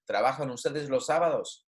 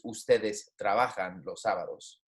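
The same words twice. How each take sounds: First: "Trabajan ustedes los sábados" with little change of tone; inverted question. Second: "Ustedes trabajan los sábados" lower, settling on "sábados"; statement intonation. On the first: Spanish teacher contrasting inverted question with statement, modest intonation. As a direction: ask "Trabajan ustedes los sábados" without a big final rise. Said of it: "I don't even make, need to make my tone". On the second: Spanish teacher contrasting statement with inverted question, lower intonation. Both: Shown as a demonstration.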